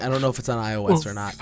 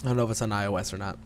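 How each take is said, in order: First: Quick "I O S or not", words run together; hurried phrasing. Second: Very fast, low and quiet "I O S or not"; rushed repeat. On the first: Real, not acted. Unsure about the game's platforms, quick run-together "I O S or not". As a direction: say "I O S or not" quickly, as one unit. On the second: Shown as a demonstration. Repeating it for a co-host, low rushed "I O S or not". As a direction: rattle off "I O S or not" under the voice. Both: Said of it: "You have to say it like that".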